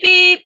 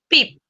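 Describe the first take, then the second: First: The sound is held a little longer. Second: The sound is very short and clipped. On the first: It stands for a Morse dash. "un poquito más largo" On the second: It stands for a Morse dot. "el puntito es súper corto el sonido"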